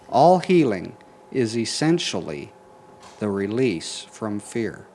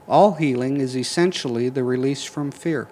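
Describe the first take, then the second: First: It is said more slowly. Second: It is said at a normal pace.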